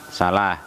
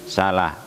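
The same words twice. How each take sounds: Both takes have the same delivery.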